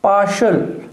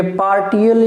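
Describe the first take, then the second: First: पार्शियल with a clear श sound in the middle; the right form पार्शियल, sh sound in the middle; correct pronunciation. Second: पार्टियल with a hard retroflex ट sound; the wrong form पार्टियल, hard t in the middle; wrong pronunciation. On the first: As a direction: say पार्शियल with sh, not t. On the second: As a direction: say पार्टियल with a t, as the mistake to avoid. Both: Shown as a demonstration. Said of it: "ये पार्टियल या पार्शियल नहीं है".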